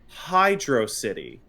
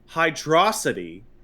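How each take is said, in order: First: It is said as two separate words. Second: It is said as one blended word. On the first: The speaker calls it right. "the actual pronunciation of the stage being Hydro City" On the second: The speaker calls it wrong. "as performed and spoken by freaks"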